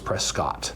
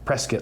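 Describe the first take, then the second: First: The last syllable does not rhyme with biscuit. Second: The last syllable rhymes with biscuit.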